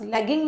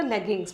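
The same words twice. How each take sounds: First: Said in the usual way. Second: "लेगिंग्स" with a final s, lower and softer; plural ending sounded. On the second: Shown as a demonstration. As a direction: answer with "लेगिंग्स", s on the end. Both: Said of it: "लेगिंग नहीं बोलते".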